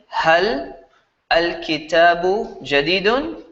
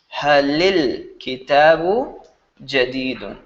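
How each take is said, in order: First: Hal is said separately, with no added vowel. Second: Hal links to kitabu through an 'i' vowel. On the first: The speaker calls it wrong. "instead of saying" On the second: The speaker calls it right. "you say"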